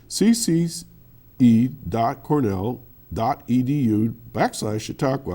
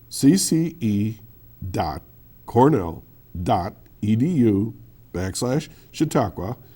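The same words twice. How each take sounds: First: The address is said at a faster pace. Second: The address is said at a slower pace.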